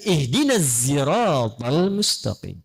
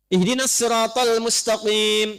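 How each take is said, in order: First: The word sirat starts with a z sound. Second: The word sirat starts with a heavy, emphatic s. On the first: "Maka turun riwayat pakai zai"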